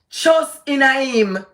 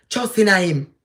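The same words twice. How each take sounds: First: "Trust in him" drawn out slow and higher, weight on "Trust"; slow emphatic plea. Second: Said in the usual way. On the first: Acted. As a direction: stretch "Trust in him" slowly, pleading. Repeats plea, second time slower.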